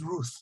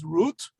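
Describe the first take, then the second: First: The name ends with a th sound. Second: The name ends with a t sound. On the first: This is the ancient pronunciation. "probably she would have pronounced it as Ruth" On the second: This is the modern pronunciation. "We would pronounce it as Ruth"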